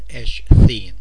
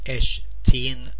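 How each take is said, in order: First: The sound after sh is a th sound. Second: The sound after sh is a plain t. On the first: The speaker calls it wrong. "rather than Eshteen" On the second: The speaker calls it right. "It's easier to say Eshteen"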